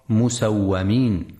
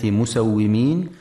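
First: "مسومين" said musawwamin, with an a after the و; fatha on the waw. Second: "مسومين" said musawwimin, with an i after the و; kasra on the waw. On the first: Teacher showing listeners the reading to avoid, "مسومين" as musawwamin. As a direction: put a short a on the و in "مسومين": musawwamin. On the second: Teacher showing listeners the correct reading, "مسومين" as musawwimin. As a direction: put a short i on the و in "مسومين": musawwimin. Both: Shown as a demonstration. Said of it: "لكسر الواو وعدم فتحها".

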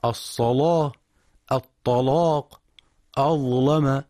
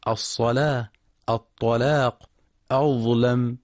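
First: الصلاة، الطلاق، أظلم with the lam thick and heavy, a little higher; heavy lam, Warsh reading. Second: Said in the usual way. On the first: Shown as a demonstration. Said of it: "وقرأ بتغليظ هذه اللامات من القراء ورش". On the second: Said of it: "وقرأ بتغليظ هذه اللامات ورش".

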